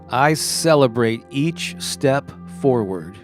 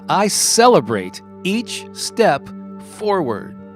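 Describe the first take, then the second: First: It is said in a plain, calm way. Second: It is said with lively enthusiasm.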